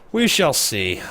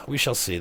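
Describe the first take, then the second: First: Loud, higher "we shall see" with "we" stressed; grand louder take, "we" punched and falling; ominous declaration. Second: "We shall see" repeated softer, "We" still leading; a calmer echo of the line; quieter echo. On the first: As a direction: boom it out like a threat. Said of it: "we shall see repeated". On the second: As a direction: let it settle back down after the big take. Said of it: "repeat softer". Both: Shown as a demonstration.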